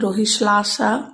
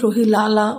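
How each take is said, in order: First: The name is said with hissy sl sounds. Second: The name is said with plain l sounds. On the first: The speaker calls it right. "दरअसल इनके नाम का उच्चारण होता है" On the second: The speaker calls it wrong. "इसे पढ़ा जाए तो आप इसे ने, नेल्सन रोहिलाला मंडेला पढ़ेंगे"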